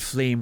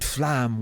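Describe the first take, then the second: First: The word is pronounced as English 'flame'. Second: The word is pronounced as French 'flamme'.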